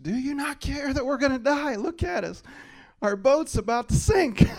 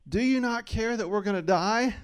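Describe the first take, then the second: First: Much higher, louder mock panicked shout; accusing shout. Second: Quoting with a laugh, higher and louder; mock the disciples while laughing; amused quote. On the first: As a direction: yell at Jesus like the scared disciples. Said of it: "Jesus in a situation being accused". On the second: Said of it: "Their first thing they said was".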